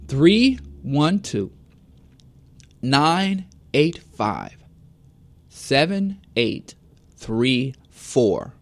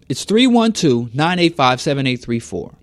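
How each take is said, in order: First: The number is read slowly. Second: The number is read at normal speed.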